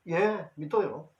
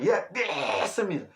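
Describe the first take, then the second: First: It is said calmly and plainly. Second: It is said forcefully, with shouted effort.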